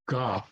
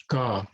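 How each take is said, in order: Both takes have the same delivery.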